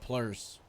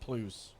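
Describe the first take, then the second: First: The name is said with an R sound. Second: The name is said without an R sound. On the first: The speaker calls it right. "pronounced the R in your name" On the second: The speaker calls it wrong. "always said Plus"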